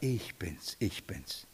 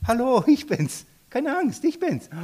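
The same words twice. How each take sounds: First: Much softer and lower, tender; gentle Jesus. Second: Much higher, bright and friendly; cheerful Jesus. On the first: Jesus speaks peace into the heart, soft and low. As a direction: murmur it to bring rest. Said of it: "Er sagt". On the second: Jesus calls to the frightened disciples, cheerful and much higher. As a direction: cheerfully wave away their fear. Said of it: "Ich lieb diese Stelle". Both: Acted.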